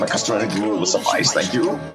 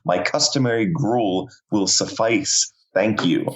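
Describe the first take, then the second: First: The words are run together quickly. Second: The words are said clearly and separately.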